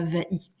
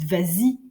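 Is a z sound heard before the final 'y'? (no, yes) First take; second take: no; yes. First: It is said with no z sound before 'y'. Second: It is said with a linking z before 'y'. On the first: The speaker calls it wrong. "et non pas vas-y" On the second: The speaker calls it right. "Vous dites vas-y"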